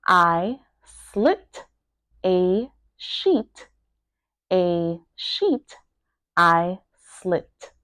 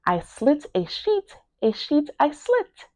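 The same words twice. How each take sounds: First: Broken into separate words with pauses. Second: Said in the usual way. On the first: Shown as a demonstration. Teacher breaking down a tongue twister, word by word. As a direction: pronounce each word on its own. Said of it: "make sure that you are pronouncing each word". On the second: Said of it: "pronouncing each word".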